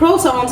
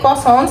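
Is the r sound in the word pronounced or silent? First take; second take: pronounced; silent. First: The r sound is clearly pronounced. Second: The r sound is left silent. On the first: The speaker calls it wrong. "हम एशियंस के मुंह पे क्रॉसॉन्स चढ़ा हुआ है तो हम क्रॉसॉन्स बोलते हैं" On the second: This is what the pastry is properly called. The speaker calls it right. "क्रॉसॉन्स इसे कहा जाता है"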